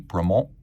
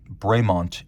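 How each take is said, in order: First: The name is said with a French pronunciation. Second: The name is said with an English pronunciation. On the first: This is the precise original form of the name. "if you want to be precise, it would be Bremont" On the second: This is the anglicized form of the name. "Bremont is the anglicized pronunciation"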